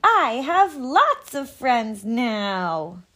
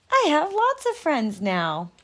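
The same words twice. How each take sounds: First: Loud, slow, joyful shout; very loudly. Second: Bright, cheerful announcement; happy. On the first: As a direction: shout it out happily. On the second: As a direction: tell it with glee. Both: Acted. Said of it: "he said it again very loudly".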